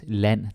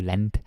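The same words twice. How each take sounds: First: The final d is not pronounced. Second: The final d is clearly pronounced. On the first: The speaker calls it right. "L A N D is land" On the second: The speaker calls it wrong. "not land or land"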